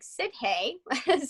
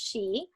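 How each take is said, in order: First: It is said as spelled, like 'sid-hee'. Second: It is said as one syllable, like 'shee'. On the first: The speaker calls it wrong. "a lot of people who aren't familiar with the word will say it like that" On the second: The speaker calls it right. "but it is pronounced she"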